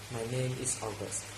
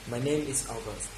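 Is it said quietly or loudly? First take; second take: quietly; loudly. First: It is mumbled quietly. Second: It is said louder and clearer.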